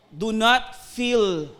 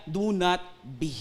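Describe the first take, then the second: First: "Do not feel" drawn out very slowly; stress on not feel. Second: "Do not be" said slowly, weight on "not"; stress on not be. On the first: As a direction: bagalan ang "Do not feel", diin sa "not". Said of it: "hindi sinabi ng Panginoon na". (mabagal na "Do not feel") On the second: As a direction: bigat sa "Do not be", mabagal. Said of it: "Ang sinabi niya". (mabagal at madiing "Do not be") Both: Shown as a demonstration.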